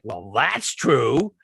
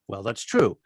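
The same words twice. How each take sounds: First: It is said in a sarcastic tone. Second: It is said in a plain, straightforward tone.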